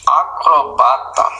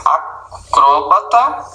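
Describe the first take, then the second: First: Acrobata, stress on the third syllable, ba; oxytone-style acrobat. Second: Acróbata, stress on the second syllable, cró; paroxytone acrobat. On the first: Teacher shows the second stress form. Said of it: "admitem dupla pronúncia". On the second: Teacher shows one of two stress forms. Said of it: "Por exemplo". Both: Shown as a demonstration.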